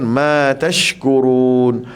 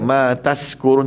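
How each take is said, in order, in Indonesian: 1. Konsonan tengahnya adalah bunyi sh. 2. Konsonan tengahnya adalah bunyi s biasa. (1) "pastikan tashkurun ya, tashkurun sy sini" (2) "Jangan macam macam kita baca s saja, ma tashkurun tak boleh"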